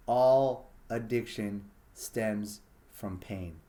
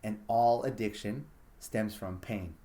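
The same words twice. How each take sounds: First: "All addiction stems from pain" said very slowly, weight on "All"; drawn-out final statement, "All" stressed; slow emphatic repeat. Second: Said in the usual way. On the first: Shown as a demonstration. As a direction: land it word by word, hammering "All".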